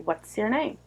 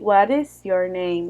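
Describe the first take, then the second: First: The words run together like one word. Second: Each word is said separately, with no linking. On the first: The speaker calls it right. "You say what's your name" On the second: The speaker calls it wrong. "You don't say what is your name"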